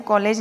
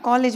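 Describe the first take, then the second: First: कॉलेज ending in "layj"; कॉलेज with long second vowel; wrong pronunciation. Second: कॉलेज ending in short "lij"; corrected pronunciation. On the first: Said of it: "कॉलेज नहीं बोलना". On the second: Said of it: "आप कॉलेज बोलना". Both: Shown as a demonstration.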